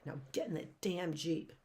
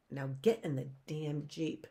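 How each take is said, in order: First: Said in the usual way. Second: A touch of a menacing villain; lightly voiced villain order. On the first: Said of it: "He says that right there". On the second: A narrator's reading. Stefano orders the orphans into the Jeep, lightly menacing.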